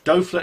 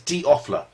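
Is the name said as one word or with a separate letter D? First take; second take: one word; separate letter. First: The name is said as one blended word. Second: The letter D is said apart from Offler. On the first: The speaker calls it wrong. "So I mispronounced your name" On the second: The speaker calls it right. "Dofler is D. Offler"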